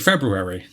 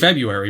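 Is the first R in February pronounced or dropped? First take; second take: pronounced; dropped. First: The first R sound is pronounced. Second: The first R sound is left out. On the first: "it's harder to say February" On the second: "we say February"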